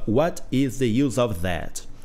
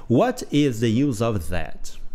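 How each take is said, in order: Both takes have the same delivery.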